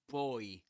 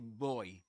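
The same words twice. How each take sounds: First: The b is released with an explosive burst. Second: The b is voiced and released without a burst. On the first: The speaker calls it wrong. "you don't say b, boy" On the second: The speaker calls it right. "This is not produced as an explosion. ... but you say boy"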